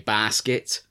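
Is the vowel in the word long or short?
long. The first vowel is drawn out long. "I elongate the ah"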